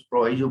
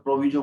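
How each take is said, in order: First: प्रोवाइजो said pro-VAI-jo with the ai diphthong; प्रोवाइजो, pro-vai-jo, open ai in the middle; pronunciation provaizo. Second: प्रोविजो said pro-VI-jo with a short i; प्रोविजो, pro-vi-jo, short i in the middle; pronunciation proviso. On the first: Teacher giving students the other way to say it, pro-vai-jo. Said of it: "कुछ प्रोवाइजो बोलते हैं". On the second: Teacher showing students one way to say it, pro-vi-jo. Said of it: "कुछ लोग प्रोविजो बोलते हैं". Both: Shown as a demonstration.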